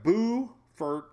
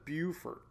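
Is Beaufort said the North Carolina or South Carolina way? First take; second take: North Carolina; South Carolina. First: It is said the North Carolina way. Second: It is said the South Carolina way. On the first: This is how the town in North Carolina is named. "North Carolina is like Beaufort" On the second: This is how the town in South Carolina is named. "South Carolina is Beaufort"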